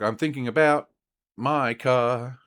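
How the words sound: There is a pause before 'my car'. "and then you want to pause. So it's like"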